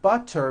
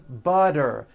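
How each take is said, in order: First: The middle consonant is a clear T sound. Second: The middle consonant is a voiced D sound.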